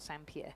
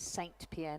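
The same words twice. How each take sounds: First: The name is pronounced the French way. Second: The name is pronounced the English way. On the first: The speaker calls it wrong. "not Saint Pierre ... I've been using the French pronunciation" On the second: The speaker calls it right. "evidently it is Saint Pierre"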